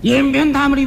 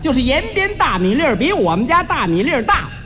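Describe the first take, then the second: First: It is said very fast and slurred. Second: It is said slowly and clearly.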